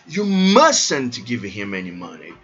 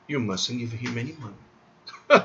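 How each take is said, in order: First: The pitch moves a lot, with heavy emphasis. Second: The pitch stays level, with little emphasis. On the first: "Se bem que eu tô colocando muita ênfase" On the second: "Não tem ênfase em nada tonal"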